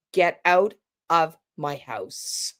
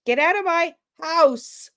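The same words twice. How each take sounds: First: Low, slow, falling command; confrontational. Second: High, light and tentative; less confrontational. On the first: Coach contrasting a firm homeowner, low and slow. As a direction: drop it down and mean it. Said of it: "less confrontational than". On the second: Coach contrasting a tentative homeowner, high pitched. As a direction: say it up high, unsure. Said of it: "is less confrontational than". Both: Shown as a demonstration.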